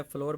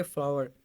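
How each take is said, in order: First: फ्लोर said like English 'floor'; mispronounced flour. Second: फ्लावर in two syllables, 'flaa-war'; corrected flour. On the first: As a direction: say फ्लोर with one long 'or' sound. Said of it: "गलत इसकी pronunciation करते हैं". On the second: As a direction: say फ्लावर to rhyme with 'our'. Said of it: "इस तरह इसको हम बोलेंगे". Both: Shown as a demonstration.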